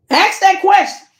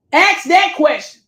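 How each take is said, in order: First: "Ask that question" pitched up and pushed; emphatic demand. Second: Said in the usual way. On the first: Acted. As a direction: insist hard on "Ask that question". Urging viewer to confront husband.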